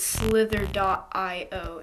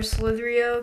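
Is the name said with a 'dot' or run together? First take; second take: dot; run together. First: The name is said with 'dot' before 'io'. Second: The name is said as one word, without 'dot'. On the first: This is how another player says the name. "he says that it's slither.io" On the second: This is how the speaker prefers to say the name. "I'm going to say Agario or Slitherio because it's just better"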